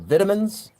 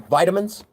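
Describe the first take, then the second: First: It is said with a British pronunciation. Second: It is said with an American pronunciation.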